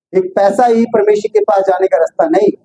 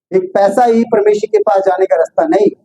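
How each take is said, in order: No difference in how they are said.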